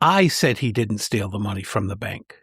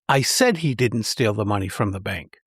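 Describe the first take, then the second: First: The stress falls on the word I. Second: The stress falls on the word said. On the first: The speaker is making clear who made the claim. "The first clarifies what I claimed" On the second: The speaker really did say it. "The second emphasizes that I actually said it"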